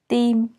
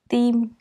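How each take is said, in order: First: The starting T sound is soft and subtle. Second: The starting T sound is soft and subtle.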